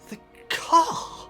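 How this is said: It sounds confused and questioning.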